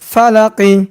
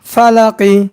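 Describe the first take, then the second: Both takes have the same delivery.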